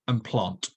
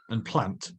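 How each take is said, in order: First: The vowel has an 'ar' sound. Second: The vowel has no 'ar' sound. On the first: This is how many people in London say it. "where I live in London, lots of people say it with an R sound" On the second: This is how people elsewhere in the country say it. "If you lived somewhere else in the country, you might say those words differently"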